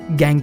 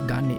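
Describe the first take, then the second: First: The word is said like 'gang' ending in ng. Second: The word is said like 'gaan' with a long vowel. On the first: The speaker calls it right. "But इसे गैंग कहते हैं" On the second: The speaker calls it wrong. "मेरा pronunciation ही खराब है"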